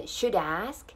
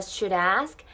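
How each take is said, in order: First: "should ask" with the D held, then linked; careful "shud-ask", clear D; stopped D. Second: "should ask" with the D flowing into the vowel; American pronunciation. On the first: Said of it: "should、止めてあげてください。". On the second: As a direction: run "should ask" together like "shu-rask". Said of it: "アメリカ英語だったら". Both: Shown as a demonstration.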